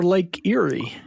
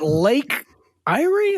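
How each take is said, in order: First: "Erie" said as EER-ee; "Lake Erie" with "Erie" starting like "ear"; short ear sound opening "Erie"; ear-ee pronunciation. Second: "Erie" said as EYE-ree; "Lake Erie" with "Erie" starting like "eye"; long I opening "Erie"; eye-ree pronunciation. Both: Shown as a demonstration. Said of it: "how to pronounce that word".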